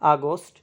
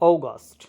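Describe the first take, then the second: First: It is said in a Bangladeshi English accent. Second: It is said in a British English accent. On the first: "আমরা উচ্চারণ করে থাকি" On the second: "ব্রিটিশরা উচ্চারণ করে থাকে"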